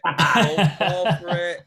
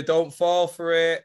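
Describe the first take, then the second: First: Slow, said through a laugh. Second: Said in the usual way. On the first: Real, not acted. Friend warning a pal off a grammar trap, laughing. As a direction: crack up while warning him, slowly.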